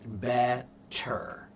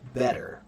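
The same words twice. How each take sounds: First: It is said slowly with a clear T sound. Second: It is said quickly with a soft D-like sound. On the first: "When it's slow, it's a T" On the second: "But when you speak it quickly"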